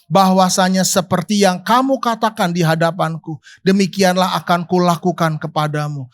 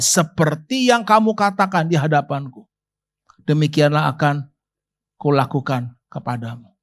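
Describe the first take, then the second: First: Said in the usual way. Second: "demikianlah" and "kulakukan" stretched, low and falling; each word set down heavily, fading low; solemn repeat of God's warning, low and heavy; weighty slow repeat. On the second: Shown as a demonstration. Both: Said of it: "Keras lagi baca".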